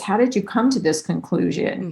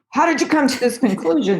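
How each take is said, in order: First: The question sounds warm and genuinely interested. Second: The question sounds sharp and confrontational. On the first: The listener gets space to explain themselves. The speaker calls it right. "I'm really curious" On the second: The listener feels pushed against the wall. The speaker calls it wrong. "it's so important to watch your tone. So if you go"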